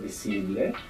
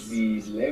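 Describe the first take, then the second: First: The middle consonant is a hissing S sound. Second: The middle consonant is a buzzing Z sound. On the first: The speaker calls it right. "We want" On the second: The speaker calls it wrong. "putting that Z there from English and pronouncing"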